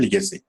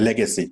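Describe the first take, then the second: First: লিগেসি with an "i" in the first syllable; learner's mispronunciation. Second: লেগেসি with an "e" in the first syllable; correct pronunciation. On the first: Teacher supposing he said it the local way, mispronounced. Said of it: "ধরুন আমি উচ্চারণ করলাম". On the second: Teacher showing learners how the word really is, correct pronunciation. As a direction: say লেগেসি as "LEG-uh-see". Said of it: "লিগেসি শব্দটা হচ্ছে". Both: Shown as a demonstration.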